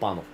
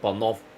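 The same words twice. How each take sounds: First: The stress is on the first syllable. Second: The stress is on the last syllable. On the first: This is not the Bulgarian way to say it. The speaker calls it wrong. "not Panov" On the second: This is the Bulgarian way to say it. The speaker calls it right. "it hits on the V"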